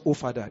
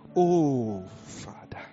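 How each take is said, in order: First: It is said plainly, without special emphasis. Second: It is said with strong, heavy emphasis.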